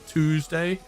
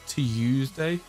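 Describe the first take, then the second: First: Tuesday starts with 'too', American style. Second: Tuesday starts with 'tew', British style.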